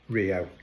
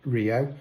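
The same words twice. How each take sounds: First: The word begins with an H sound. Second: The word begins with an R sound.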